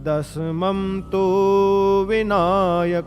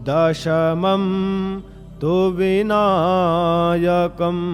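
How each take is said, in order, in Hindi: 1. 'tu' में स्वर लंबा खींचा गया है। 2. 'tu' में स्वर छोटा रखा गया है। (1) "ये तू को कुछ लोग बड़ा कर देते" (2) "ऊ की मात्रा ये छोटी है"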